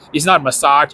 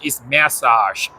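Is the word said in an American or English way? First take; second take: American; English. First: It is said the speaker's usual American way. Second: It is said the way the English say it.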